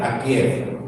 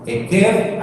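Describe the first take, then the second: First: "akier" said with an opening A and a KIE glide; "akier" as the word for heel, A first; pronunciation demo. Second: "eker" said with an opening E sound; "eker" as the word for consequence, E first; pronunciation demo. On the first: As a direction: say "akier" lower, starting on A. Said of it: "talón suena más como akier". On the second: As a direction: say "eker" higher, starting on E. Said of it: "dependiendo del contexto también la pronunciación es distinta". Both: Shown as a demonstration.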